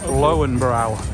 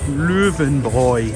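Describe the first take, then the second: First: The name is said the common non-local way. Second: The name is said the local German way. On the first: The speaker calls it wrong. "Most people would say Lowenbrau" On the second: The speaker calls it right. "the correct pronunciation is? ... Spoken like a local"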